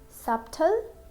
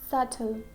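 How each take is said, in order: First: A B sound is pronounced in the middle. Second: No B sound is pronounced in the middle. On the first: The speaker calls it wrong. "We can't say subtle" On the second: The speaker calls it right. "we'll say subtle"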